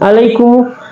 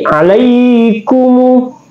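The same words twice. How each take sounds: First: The 'ai' sound is short. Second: The 'ai' sound is held for two beats. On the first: The speaker calls it wrong. "bukan alaikum" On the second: The speaker calls it right. "tapi tapi alaikum"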